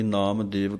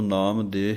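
First: The second word ends with a 'v' sound. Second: The second word ends on a plain 'e' sound. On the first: "ਕਈ ਨਾਮ ਦੇਵ ਕਹਿ ਦਿੰਦੇ ਹਨ" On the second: "ਨਾਮ ਦੇ ਹੀ ਇਕੱਲਾ ਕਹਿ ਦਿੰਦੇ ਹਨ"

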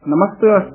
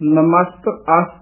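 First: The two words are said quickly, run together. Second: The two words are said slowly and apart. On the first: The speaker calls it right. "ਤੇਜ਼ੀ ਨਾਲ ਬੋਲਣਾ ਹੈ" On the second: The speaker calls it wrong. "ਇਸ ਤਰ੍ਹਾਂ ਨਹੀਂ ਬੋਲਣਾ"

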